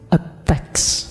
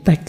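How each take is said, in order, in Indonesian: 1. Kata itu diucapkan seperti 'a text'. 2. Kata itu diucapkan seperti 'teks' biasa. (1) "tidak bisa bilang teks, bilangnya a text" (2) "Jadi teks suci"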